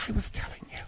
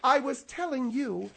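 First: Hushed, pointed whisper. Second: Said in the usual way. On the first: Acted. [name] privately corrects the host, whispering. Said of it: "Oh, you, you're whispering". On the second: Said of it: "you're whispering".

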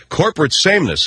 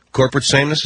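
First: Said in the usual way. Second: Corporate sameness? with a rising, doubting tune; mocking disbelief at the mayor's phrase; incredulous echo. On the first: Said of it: "what Mayor Lynn Johnson calls corporate sameness". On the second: Shown as a demonstration. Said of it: "Is that what you guys call it".

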